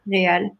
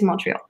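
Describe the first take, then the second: First: It is said with French sounds, no T. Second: It is said with English sounds, with a T.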